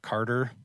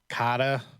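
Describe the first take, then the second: First: It is said in a standard accent with R. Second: It is said with a Boston accent, no R.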